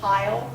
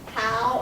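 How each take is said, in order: First: The vowel glides as a full diphthong. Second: The vowel is flattened into one short sound. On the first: It is the standard pronunciation. "instead of" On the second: It is the local dialect pronunciation. "vowels in our words merge, making the word shorter"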